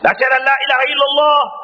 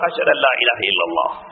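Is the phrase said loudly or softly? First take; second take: loudly; softly. First: The phrase is said loudly. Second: The phrase is said softly. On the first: "சத்தமா ஒன்று சொல்லிட்டு" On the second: "மெதுவாக"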